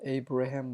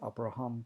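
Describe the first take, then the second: First: The name begins with an 'ay' vowel sound. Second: The name begins with an 'ah' vowel sound. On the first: This is the English way of saying it. "영어는 ... 에이브레햄 뭐 이렇게 읽지만" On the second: This is the Hebrew way of saying it. "히브리어는 그냥 아브람, 아브라함"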